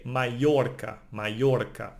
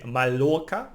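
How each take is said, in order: First: Mallorca with the ll as a y sound; Mallorca, double l turned into y. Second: Mallorca with a plain English l sound; Mallorca as ma-LOR-ka; wrong double L. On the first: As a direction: say Mallorca as ma-YOR-ka. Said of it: "pronounced like, uh, Y". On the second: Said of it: "We don't say Mallorca". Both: Shown as a demonstration.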